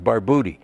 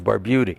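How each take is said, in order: First: The u has a short Italian vowel sound. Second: The u has a long Americanized vowel sound. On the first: This is the original form from Italy. "in Italian, the U was pronounced like U, so the correct pronunciation is" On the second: This is the form the family used in America. "it became Americanized, so the U was pronounced long"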